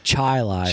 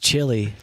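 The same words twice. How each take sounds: First: The word ends with a 'lie' sound. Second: The word ends with a 'lee' sound. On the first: The local way the hometown's name is said. "a bunch of morons who pronounce chili Chili" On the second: The ordinary word as most people say it. "pronounce chili"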